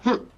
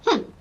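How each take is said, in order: First: It is a flat, unimpressed hmm. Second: It is a friendly, smiling hmm.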